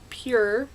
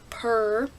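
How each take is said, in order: First: It sounds like the word pure, with a y-glide. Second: It sounds like the word purr, without a y-glide. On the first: This is how the speaker says it. "I say it pure" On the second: This is how some other people say it. "some people say purr"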